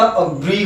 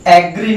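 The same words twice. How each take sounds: First: "अग्री" with a short a at the start; right a start. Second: "एग्री" with an open eh at the start; wrong eh start. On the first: Teacher giving the correct pronunciation. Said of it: "अग्री होता है". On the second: Teacher contrasting the wrong sound. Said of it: "एग्री नहीं होता". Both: Shown as a demonstration.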